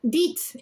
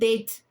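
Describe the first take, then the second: First: It is said in a Glaswegian accent. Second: It is said in a standard accent. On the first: "Date instead of date" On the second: "instead of date"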